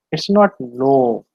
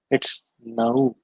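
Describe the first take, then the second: First: "no" slow with a pure long o; the wrong, monophthong "no"; wrong version. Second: "no" with an ou glide, lower; the right "no", gliding; correct version. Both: Shown as a demonstration.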